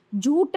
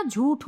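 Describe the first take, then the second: First: झूठ ending in unaspirated "ट"; no puff of air ending झूठ; wrong pronunciation. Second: झूठ ending in aspirated "ठ"; correct pronunciation. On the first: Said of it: "झूठ नहीं होता". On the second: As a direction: puff of air at the end of झूठ. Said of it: "झूठ होता है". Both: Shown as a demonstration.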